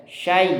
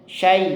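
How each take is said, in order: No difference in how they are said.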